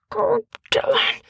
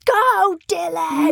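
First: The phrase is said without shouting. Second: The phrase is shouted loudly. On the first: "I'm not yelling" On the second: "I'm going to yell"

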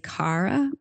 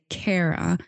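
First: The name is said the Australian way. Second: The name is said the American way. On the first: "Australians say CARA" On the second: "Americans say CARA"

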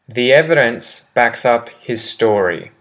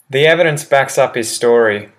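First: It is said at a slow, careful pace. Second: It is said at a fast pace.

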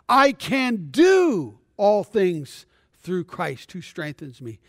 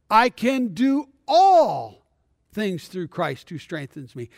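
First: The word 'do' is stressed. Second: The word 'all' is stressed.

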